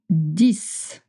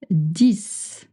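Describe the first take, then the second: No difference in how they are said.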